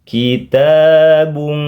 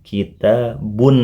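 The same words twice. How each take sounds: First: The final n is hidden, nasal hum, held long. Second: The final n is pronounced clearly and briefly. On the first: "berubah menjadi samar-samar, mendengung, dan ditahan lama dua harokat" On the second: "terdengar jelas suara n-nya"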